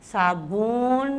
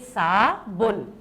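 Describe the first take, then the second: First: The second vowel is long. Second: The second vowel is short. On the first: The speaker calls it wrong. "साबुन नहीं है" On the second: The speaker calls it right. "बल्कि साबुन"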